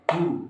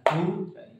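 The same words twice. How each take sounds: First: The vowel is short, one quick beat. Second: The vowel is held long, two beats. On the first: The letter stands alone without waw or alif. "ini dibaca pendek" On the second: The letter is joined with a waw. "Berarti ini dibaca panjang"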